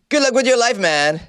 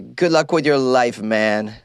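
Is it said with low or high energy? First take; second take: high; low. First: It is said with more energy. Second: It is said with little energy.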